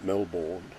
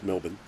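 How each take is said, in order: First: The second syllable is said in full. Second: The second syllable is cut short to 'bin'. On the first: "is how it's supposed to be pronounced" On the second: "M E L B I N"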